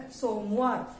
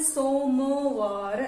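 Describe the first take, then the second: First: Said in the usual way. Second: सोमवार drawn out as सो-म-वा-र; syllable by syllable. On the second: Shown as a demonstration. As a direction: sound out सोमवार slowly for dictation. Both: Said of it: "इनको आप बोल बोल कर लिखना".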